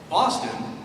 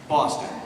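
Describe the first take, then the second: First: Said like a word midway through a sentence. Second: Said like a word ending a sentence. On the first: The word comes in the middle of the sentence. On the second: The word comes last in the sentence.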